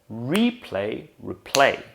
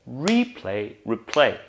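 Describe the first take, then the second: No difference in how they are said.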